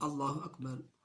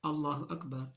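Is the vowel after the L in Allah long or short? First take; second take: short; short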